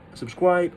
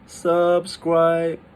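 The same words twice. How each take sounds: First: The pitch dips, then stays high and level. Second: Both syllables stay high and flat throughout. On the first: "It's like the third tone and the first tone" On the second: "That's all like the first tone, but it's gonna it's gonna be so weird"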